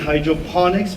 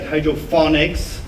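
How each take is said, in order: First: The middle consonant is a p sound. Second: The middle consonant is an f sound. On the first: The speaker calls it right. "It's actually hydroponics" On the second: The speaker calls it wrong. "people all around the world get it wrong or mispronounce it"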